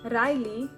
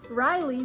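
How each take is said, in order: First: The R is rolled. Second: The R is plain, not rolled. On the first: This is the Yiddish form of the name. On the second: This is the English form of the name.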